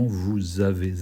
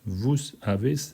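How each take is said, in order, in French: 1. Les deux mots sont reliés par un Z sonore. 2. Les deux mots sont reliés par un S sifflant. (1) "ça fait une liaison, vous avez, hein, le son Z" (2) "on ne dit pas"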